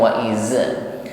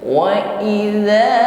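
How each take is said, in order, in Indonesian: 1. Konsonannya bunyi z yang mendesis. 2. Konsonannya bunyi lembut seperti th. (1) "jangan sampai berdesis ... bukan wa iza" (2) "ujung lidah pertemukan ujung gigi sari atas"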